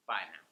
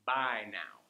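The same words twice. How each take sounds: First: "Bye now" said low and falling. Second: Said in the usual way. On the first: Shown as a demonstration. Teacher modelling a regional goodbye. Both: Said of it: "you might hear".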